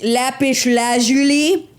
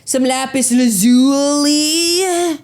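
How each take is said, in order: First: Slow, drawn-out lazuli lifting up at the end; mock show-off rising on lazuli; mock dude boast, rising. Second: Slow, a bit louder, lazuli landing down; mock show-off settling down on lazuli; mock dude boast, falling. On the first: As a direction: savour lapis lazuli like a brag, ending up. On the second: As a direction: state some lapis lazuli like a proud final word. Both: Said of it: "you were like".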